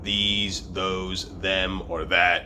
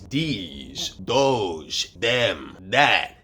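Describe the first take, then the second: First: The th sounds are said as th. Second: The th sounds are said like d.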